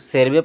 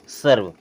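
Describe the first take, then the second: First: The word ends with an extra vowel. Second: The word ends on the consonant. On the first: The speaker calls it wrong. "हो सकता है आप इसे सर्वे पढ़ते हो, नहीं" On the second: The speaker calls it right. "लेकिन ये क्या होता है? सर्व"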